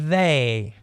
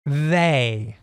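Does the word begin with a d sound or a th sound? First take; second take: th; th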